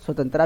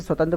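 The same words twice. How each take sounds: First: स्वतंत्रता said as swatantraa, ending in a long aa; variant pronunciation. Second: स्वतंत्र said as swatantra, ending in a short a; recommended pronunciation. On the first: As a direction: end स्वतंत्रता on an open long "traa". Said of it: "भी बोलते हैं कई लोग". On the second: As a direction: keep the final "tra" of स्वतंत्र short. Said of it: "बोलिए तो बहुत अच्छा रहेगा". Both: Shown as a demonstration.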